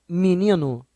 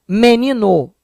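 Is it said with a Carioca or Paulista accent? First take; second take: Carioca; Paulista. First: It has a Carioca accent, E as I, O as U. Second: It has a Paulista accent with clear E and O.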